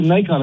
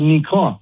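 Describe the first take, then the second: First: "Nikon" with a long English I; Nikon as "NIGH-kon". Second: "Nikon" as "nee-KON"; Japanese-style Nikon. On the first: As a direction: say Nikon starting like "night". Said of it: "Everybody calls it Nikon". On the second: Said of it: "how you pronounce it in Japanese". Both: Shown as a demonstration.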